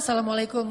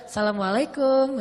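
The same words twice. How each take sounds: First: It is said as a plain, ordinary greeting. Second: It is said in a flirtatious, suggestive tone.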